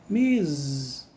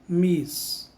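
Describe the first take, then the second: First: The word ends with a z sound. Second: The word ends with an s sound. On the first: The speaker calls it right. "Com o som de Z no final" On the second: The speaker calls it wrong. "Não é Miss"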